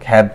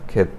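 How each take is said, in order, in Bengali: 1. স্বরধ্বনিটি cat-এর মতো খোলা 'a'। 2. স্বরধ্বনিটি bed-এর মতো মধ্য 'e'। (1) "খ্যাত না ক্ষেত" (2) "আমি জানি এটা হলো ক্ষেত"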